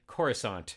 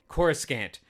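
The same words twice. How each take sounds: First: The C in the word is soft. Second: The C in the word is hard. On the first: The speaker calls it right. "they say Coruscant" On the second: The speaker calls it wrong. "I pronounced it Coruscant with a hard C"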